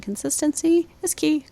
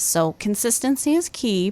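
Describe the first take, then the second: First: "Consistency is key" said much higher, every word punched; emphatic repeat. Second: Said in the usual way. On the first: Shown as a demonstration. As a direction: hammer it home for the parents, pitched well up. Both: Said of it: "Write that down".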